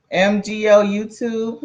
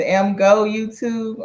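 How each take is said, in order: First: "M G O YouTube" read as separate letters M, G, O; spelled-out name. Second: "M go YouTube" with "go" said as one word, "em go"; name said as a word. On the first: Streamer greets viewer, reading "M G O" as three letters. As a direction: spell out "M G O" letter by letter, a bit slower. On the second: Streamer tries second reading, "M go" as letter plus word. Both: Shown as a demonstration. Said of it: "I'm not sure exactly how to say it".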